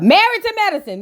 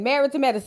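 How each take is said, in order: First: Triumphant title callout; emphatic correction. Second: Softer, dropped confirming echo; quiet repeat. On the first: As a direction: announce the right show name with emphasis. Correcting the show's name. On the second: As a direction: repeat it under your breath to yourself. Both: Real, not acted.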